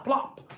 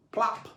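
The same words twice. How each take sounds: First: High popping plop; plop sound effect. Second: A gentler echoing pop; plop sound effect. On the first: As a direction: pop it like a cork. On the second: Second plop, softer. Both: A narrator's reading.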